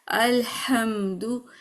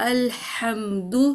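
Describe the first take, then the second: Both takes have the same delivery.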